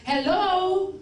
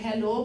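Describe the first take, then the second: First: It is said excitedly, with lively energy. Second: It is said flatly, with little energy. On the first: The speaker calls it right. "to even make it more exciting, you could have said hello" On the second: The speaker calls it wrong. "you said hello"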